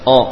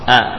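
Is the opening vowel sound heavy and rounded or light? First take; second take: heavy; light. First: The opening hamzah is thick, sounding like o. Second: The opening hamzah is thin, sounding like a. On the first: The speaker calls it wrong. "jangan menebalkan hamzah Allah misalkan O" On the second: The speaker calls it right. "dibacalah dengan tipis"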